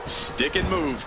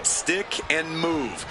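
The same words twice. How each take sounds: First: Said in the usual way. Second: Slow and deliberate; slow, drawn-out advice. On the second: Shown as a demonstration. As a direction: spell it out slowly.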